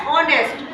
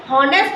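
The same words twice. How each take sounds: First: ऑनेस्ट starting straight on the O vowel; silent H. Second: हॉनेस्ट with the H sounded at the start; wrong pronunciation. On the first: Teacher showing students the first sound, ऑनेस्ट with silent H. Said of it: "एच silent रहता है". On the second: Teacher showing students what not to say, हॉनेस्ट with a sounded H. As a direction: say हॉनेस्ट with an audible initial H. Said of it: "हॉनेस्ट नहीं बोलते". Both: Shown as a demonstration.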